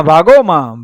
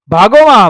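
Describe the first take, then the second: First: The cry already fading; softer repeated call. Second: High, loud cry after fleeing men; shouted call. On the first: Shelo calling again to his fleeing men, softer. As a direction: repeat the call, less forceful. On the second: Shelo shouting to his fleeing Kathis, loud cry. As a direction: yell it out across the field. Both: A narrator's reading. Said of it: "શેલાએ સાદ દીધો".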